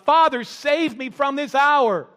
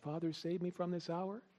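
First: It is said as a firm statement. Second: It is said as a question.

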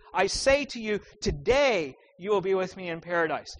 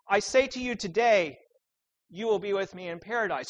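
First: The pause comes before the word today. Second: The pause comes after the word today.

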